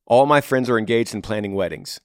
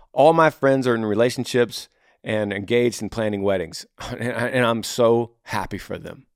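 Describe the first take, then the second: First: Mildly resentful reading of a complaint; negative. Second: Mildly glad, appreciative retelling; flipped positive. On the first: Reading a single man's email about friends' weddings, mildly negative. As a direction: read it as a mild grievance, falling away. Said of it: "That's a negative to you". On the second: Modelling a flipped attitude to friends' weddings, mildly happy. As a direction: turn the complaint into gladness for them. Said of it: "what if you flip it". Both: Acted.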